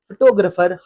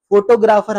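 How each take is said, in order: First: फोटोग्राफर as fuh-TO-gruh-fer; short first and third vowels in फोटोग्राफर; correct pronunciation. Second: फोटोग्राफर as FO-to-GRAA-far; full O and long AA in फोटोग्राफर; wrong pronunciation. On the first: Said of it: "आपने कहना है". (फोटोग्राफर सही, फ़-टो-ग्रफ़र) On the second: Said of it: "ये नहीं कहना". (फोटोग्राफर ग़लत, फ़ो-टो-ग्रा-फ़र) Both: Shown as a demonstration.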